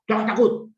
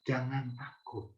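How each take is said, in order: First: Loud, high barked command; harsh snap. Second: Soft and slow reassurance; gentle, tender. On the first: Preacher showing how Jesus did not say it, sharp shout. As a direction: bark it like a scolding order. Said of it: "Dia nggak bilang dengan bentak". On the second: Preacher showing how Jesus really said it, tender and slow. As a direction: say it softly and slowly to comfort. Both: Shown as a demonstration.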